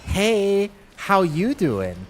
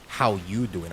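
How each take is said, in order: First: Loud, high, drawn-out hey-there greeting; masculine alternative. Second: A modest try at a macho line; masculine. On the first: Streamer offering chat the other option, loud exaggerated macho greeting. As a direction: belt out a big exaggerated come-on. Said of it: "Or is it like". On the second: Streamer asking chat which is manlier, restrained macho greeting. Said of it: "is it like". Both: Acted.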